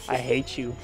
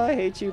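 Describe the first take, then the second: First: It is said in a genuinely angry tone. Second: It is said in a light, teasing tone. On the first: The dislike is sincere. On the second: The dislike is only a joke.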